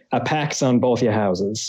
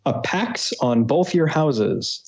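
First: Thick New England accent, pahks on both yah houses. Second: Said in the usual way. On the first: Shown as a demonstration. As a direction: lay on a heavy Boston-style New England accent. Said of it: "say with a thick New England accent". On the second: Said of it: "or if you want to say with a thick New England accent".

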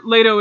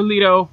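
First: "Leto" said LAY-toh; pronunciation variant. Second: "Leto" said LEE-toh; alternative pronunciation. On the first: Host unsure of the character's name, "Leto" as LAY-toh. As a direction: say "Leto" with a first syllable like "lay". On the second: Host offering the other option, "Leto" as LEE-toh. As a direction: say "Leto" with a first syllable like "lee". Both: Shown as a demonstration. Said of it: "supposed to be pronounced Leto or Leto".

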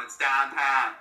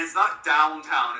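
First: "downtown" with Pittsburgh flattened "ah" vowels, like dahntahn; Pittsburgh pronunciation. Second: Said in the usual way. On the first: Shown as a demonstration.

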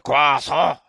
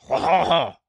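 First: Croissant said the French way, kwa-SAH. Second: Croissant with a French nasal ending, no t; French croissant again. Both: Shown as a demonstration. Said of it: "Did I say it right?".

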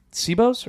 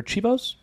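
First: "Cibo's" starting with an S sound; soft C. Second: "Chibo's" starting like cheese; CH sound. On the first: Unsure of a restaurant's name, "Cibo's" said with an S. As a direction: say "Cibo's" as see-bows. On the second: Offering another restaurant pronunciation, "Chibo's" said with a CH. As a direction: say "Chibo's" as chee-bows. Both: Shown as a demonstration. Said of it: "I don't know how they pronounce it".

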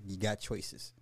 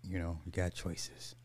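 First: Said in the usual way. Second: Soft whispered repeat; whispering. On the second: Real, not acted. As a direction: whisper it, unvoiced.

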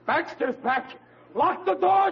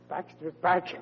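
First: Sudden mock terror at the news; panicked alarm. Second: Said in the usual way. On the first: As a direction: yell to bar the door in fright. Panic at uncle's return.

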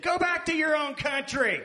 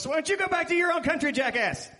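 First: Loud, high mock-American shout; hammed-up American accent. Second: Fast, high, loud mock outburst; retold angry comeback. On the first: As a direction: yell it in an exaggerated American accent. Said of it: "as much of an American accent". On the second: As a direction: fire it back in a rushed, hammed-up yell. Acts out his angry comeback.

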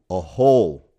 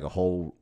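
First: Whole punched out much louder; stress on whole. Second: Said in the usual way. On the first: Real, not acted. Host stressing the size of a roast pig, whole said loud and emphatic. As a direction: hit the word whole hard, with force. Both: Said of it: "I put emphasis on the word whole".

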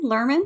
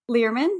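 First: "Lerman?" said LUR-man, first vowel as in "her", rising question; "Lerman?" with an r-coloured "er" sound, checking; corrected name. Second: "Lerman?" said LEER-man, first vowel like "ear", rising question; "Lerman?" with an ee sound, tentative rise; first try at the name. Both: Shown as a demonstration. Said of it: "I just looked up how you say Logan".

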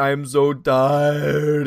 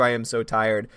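First: Dragged out, very slow weary moan; mock exhausted. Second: Said in the usual way. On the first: Host voicing a viewer's comment, a drawn-out mock-tired moan. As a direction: stretch every word like you can barely stay awake.

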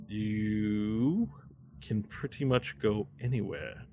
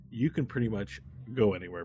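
First: Drawn-out, affected voice; put-on character voice. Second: Said in the usual way. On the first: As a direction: stretch the first word out in an odd put-on voice. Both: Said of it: "why am I doing that voice".

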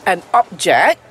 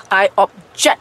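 First: "object" stressed on the first syllable, OB; noun stress. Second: "object" stressed on JECT, set apart after OB; verb stress. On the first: Teacher contrasts the thing with the protest, "object" stressed on OB. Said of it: "this is stresses with these two words". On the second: Teacher shows saya bantah to students, "object" stressed on JECT. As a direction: lean slowly into JECT in "object". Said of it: "the stress will change the meaning". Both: Shown as a demonstration.

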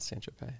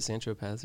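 First: "Tropez" ending in an "ay" sound; silent final z. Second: "Tropez" ending in a voiced z; sounded final z. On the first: Asking friends how it's said, "Tropez" with silent z. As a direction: say "Tropez" as "tro-PAY". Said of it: "Is it Saint Tropez or". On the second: Asking friends how it's said, "Tropez" with z sounded. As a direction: say "Tropez" to rhyme with "fez". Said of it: "or is it Saint Tropez". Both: Shown as a demonstration.

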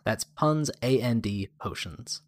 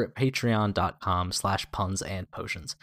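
First: "Puns, A N D, Potions" each part set apart with pauses; spelled out. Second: Said in the usual way. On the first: Shown as a demonstration. Host spelling the podcast name for listeners, each letter separate.

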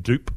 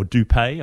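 First: "Dupe" as one syllable, ending on the P; silent final E. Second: "Dupé" as two syllables, ending in "ay"; accented final E. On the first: Podcaster guessing at a supporter's surname, "Dupe" with silent E. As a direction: say "Dupe" with no accent on the E. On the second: Podcaster offering the other reading of a surname, "Dupé" with accented E. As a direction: sound the E of "Dupé" as "pay". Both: Shown as a demonstration. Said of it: "a bit of an accent on the E".

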